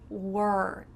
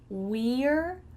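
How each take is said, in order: First: The word is said in a reduced form. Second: The word is said in its full form.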